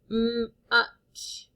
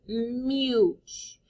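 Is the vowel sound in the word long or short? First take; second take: short; long. First: The vowel is a short U sound. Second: The vowel is a long U sound. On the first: The speaker calls it right. "Let's try with the short U" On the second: The speaker calls it wrong. "That doesn't sound like a word to me"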